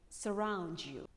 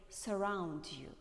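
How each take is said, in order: The two takes are said the same way.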